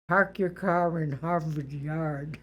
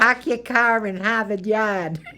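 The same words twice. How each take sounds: First: It is said in a neutral, standard accent. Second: It is said in a strong Boston accent. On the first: "I don't want you to say it the nor" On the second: "I want you to say your way"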